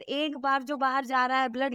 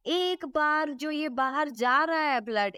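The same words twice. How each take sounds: First: Said in the usual way. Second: Each word laid out slowly, एक बार stressed; teacher slowing down so students catch एक बार; slow emphasis. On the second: Shown as a demonstration. Teacher to students, slow stressed एक बार.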